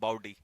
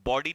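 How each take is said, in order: First: The first vowel glides like 'ow'. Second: The first vowel is a pure 'aw' sound. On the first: The speaker calls it right. "वैसे बाउडी कहते हैं इसे" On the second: The speaker calls it wrong. "बॉडी नहीं, बॉडी तो अलग हो जाएगा"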